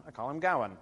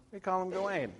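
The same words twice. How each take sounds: First: Gawain said GOW-un; first-syllable stress. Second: Gawain said guh-WAYN; last-syllable stress. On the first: Lecturer naming his choice for this poem, first-syllable stress. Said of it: "when we're talking about this poem". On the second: Lecturer naming the choice for other poems, last-syllable stress. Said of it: "when we're talking about those other poems". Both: Shown as a demonstration.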